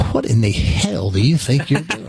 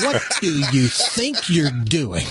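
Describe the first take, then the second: First: Fuller first take of the cop's outburst; the cop's rougher opening challenge; gruff demand. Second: A mild mock of an angry cop; gruff demand. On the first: Retold or imitated. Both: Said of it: "went from kind of being polite to this".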